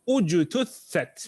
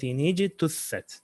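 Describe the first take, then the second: First: It starts fresh with an initial u vowel. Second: It links to the previous word with a kasra. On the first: The reciter restarts after a stop. "This time with a dhamma" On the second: The reciter continues without stopping. "you read this ayah like this"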